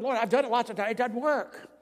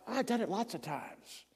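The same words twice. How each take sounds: First: Higher, louder cry to the Lord; a boy shouting his prayer as loud as he can; retold yell. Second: Softly, before the outburst; quiet plea. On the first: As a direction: yell it up at heaven in frustration. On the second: Retold or imitated. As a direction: say it under your breath first. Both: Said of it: "I yelled as loud as I could".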